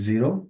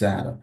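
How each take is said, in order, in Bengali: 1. প্রথম স্বরধ্বনিটি ইংরেজি 'ee'-র মতো শোনায়। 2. প্রথম স্বরধ্বনিটি খোলা 'e'-র মতো শোনায়। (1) "ইংরেজিতে এটাকে বলি জিরো" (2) "পর্তুগিজ এটাকে বলে হচ্ছে জ্যারো"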